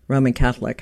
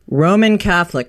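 First: Said in the usual way. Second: "Roman Catholic" set out clearly as a title; title said pointedly. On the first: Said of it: "not, not your regular". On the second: Shown as a demonstration. Host showing the punning book title, "Roman Catholic" said pointedly. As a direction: give "Roman Catholic" a firm, deliberate announcement. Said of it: "spelled R O A M I N".

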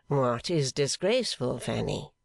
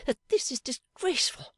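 First: Said in the usual way. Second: High, stressing that, disgusted; indignant. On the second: A narrator's reading. Fanny complains to Pa, high and indignant. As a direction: spit out the scandal. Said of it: "flushed indignantly".

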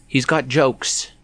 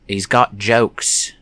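First: Slow, high mock Australian drawl; a clumsy go at an Aussie accent; imitating Buddy in a bad Australian accent. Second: Put-on slower, louder retry at an Aussie accent; an even clumsier Australian accent; a second failed go at Buddy's Aussie accent; worse Australian accent. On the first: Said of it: "that was a bad Australian accent". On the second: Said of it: "No, that's even worse".

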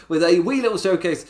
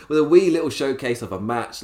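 First: Put-on higher, louder country accent. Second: Said in the usual way. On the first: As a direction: keep the country accent going through a laugh. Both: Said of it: "Do I have to stop that accent?".

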